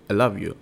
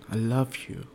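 First: It is said flatly, without feeling. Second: It is said warmly, with feeling.

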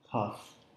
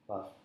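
First: The p is released with a puff of air. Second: The p is released with no puff of air. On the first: "an aspirant would be to make a little puff of air" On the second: "Try to hold your breath when you say puff"

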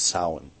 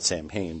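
First: The word sounds different from its spelling. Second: The word is sounded out as it is spelled. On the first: This is the authentic Gaelic pronunciation. The speaker calls it right. "the actual pronunciation is Samhain" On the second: This is the common popular pronunciation. The speaker calls it wrong. "A lot of people call it Samhain"

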